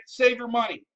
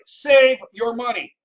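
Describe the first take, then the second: First: Said in the usual way. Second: "save your money" said loud and slow, every word hammered; emphatic loud. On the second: Acted. Repeating the rule for emphasis.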